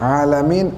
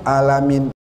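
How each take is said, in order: Both takes have the same delivery.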